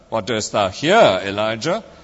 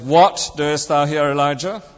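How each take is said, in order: First: The stress is on the word here. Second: The stress is on the word what. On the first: "emphasizing each word in turn" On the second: "emphasizing each word in turn"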